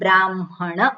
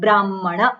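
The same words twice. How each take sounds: First: The m sound comes before the h. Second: The m is doubled with no h. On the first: "મકારને પહેલો બોલવામાં આવે" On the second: "double મકાર થઈ ગયો"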